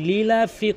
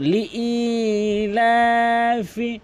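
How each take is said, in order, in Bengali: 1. এটি গ্লটাল ক্যাচ ছাড়াই একসাথে বলা হয়। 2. এখানে গ্লটাল ক্যাচ আছে এবং স্বরটি দীর্ঘ করা হয়। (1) "হামজার উচ্চারণ বাদ দিয়ে ফেলে" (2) "হামজার উচ্চারণকে এক আলিফ টেনে পড়তে হবে"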